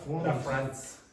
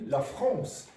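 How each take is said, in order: First: It is said with Irish English sounds, no nasal vowel. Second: It is said with French sounds and a nasal vowel. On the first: The speaker calls it wrong. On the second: The speaker calls it right.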